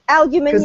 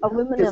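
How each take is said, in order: First: It is said the British way. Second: It is said the American way. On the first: The speaker calls it right. "And aluminium" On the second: The speaker calls it wrong. "not aluminum"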